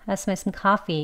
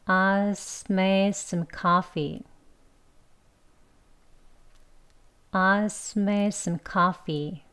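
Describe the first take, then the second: First: Quick, softer run-together English; quick swallowed native-style line; fast reduced. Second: Very slow and softer drill; slow soft drill of reduced speech; slow practice. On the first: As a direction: blend "I just made" into "I smell". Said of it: "이렇게 발음이 되는 거예요". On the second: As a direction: say the reduced form slowly. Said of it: "좀 천천히 먼저 해볼게요". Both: Shown as a demonstration.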